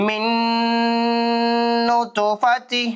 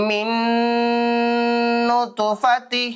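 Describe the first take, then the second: Both takes have the same delivery.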